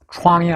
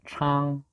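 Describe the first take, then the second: First: A w-glide comes before the vowel, like 'wang'. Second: The vowel is a plain 'ang' with no glide. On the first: The speaker calls it wrong. "왕처럼 발음하면 안 된다" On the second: The speaker calls it right. "앙처럼 발음해야지"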